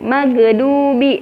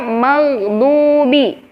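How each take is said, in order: First: The middle consonant is released with a bounce. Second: The middle consonant flows smoothly without a bounce. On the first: The speaker calls it wrong. "ini malah di qalqalahkan" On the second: The speaker calls it right.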